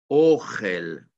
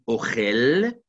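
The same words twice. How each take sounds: First: The stress is on the first syllable. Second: The stress is on the last syllable. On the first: It means food. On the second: It means he eats.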